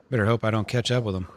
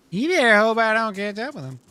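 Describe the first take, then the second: First: Said in the usual way. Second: A much higher, louder Uncle Tad voice, threatening; the same threat redone as a high put-on old man. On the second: Uncle Tad threatening the man who ran off, high character voice. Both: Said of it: "repeated in character".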